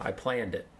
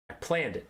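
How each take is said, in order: First: Said in the usual way. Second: "planned" stressed, pitched higher. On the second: Shown as a demonstration. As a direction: lean on "planned" with a falling tune. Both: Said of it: "I planned it, see?".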